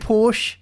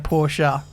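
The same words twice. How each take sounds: First: Porsche is said the Australian way. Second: Porsche is said the non-Australian way. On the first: The speaker calls it wrong. "I think Australians say Porsche" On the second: The speaker calls it right. "but I need to say Porsche"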